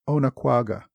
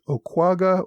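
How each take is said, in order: First: The name is said with four syllables. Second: The name is said with three syllables. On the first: "the four syllables I used" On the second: "making it a three-syllable word"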